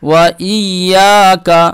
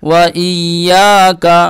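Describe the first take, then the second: The two takes are said the same way.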